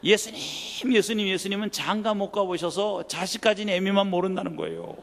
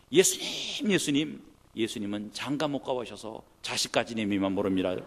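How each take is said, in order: First: Loud, insistent quote of the prayer; a preacher loudly repeating his mother's words; emphatic retelling. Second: Loud pleading cry to Jesus; a mother's loud pleading prayer; mother's tearful prayer. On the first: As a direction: hammer the prayer home to the crowd. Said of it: "이런 참남한 기도를 평생 들어본 적이 없어요". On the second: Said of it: "이렇게 기도하시더라고요". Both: Retold or imitated.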